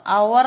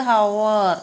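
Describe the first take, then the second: First: അവർ begun on the vowel, no H; silent H. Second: ഹവർ drawn out slowly with an audible H; H sounded. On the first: Teacher correcting the reading for learners, അവർ with silent H. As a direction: drop the H and say അവർ. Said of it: "അവർ എന്നാണ് പറയുന്നത്". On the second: Teacher introducing the next word to learners, ഹവർ with its H sounded. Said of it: "എച്ച് ഇവിടെ silent ആണ്". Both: Shown as a demonstration.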